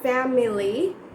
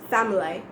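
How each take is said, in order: First: The word has three full syllables. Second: The middle vowel is dropped, giving two syllables.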